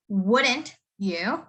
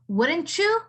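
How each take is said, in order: First: Each word is said fully and separately. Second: The words are run together in relaxed speech. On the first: "Usually you would say this as" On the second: "in a colloquial way in a normal conversation"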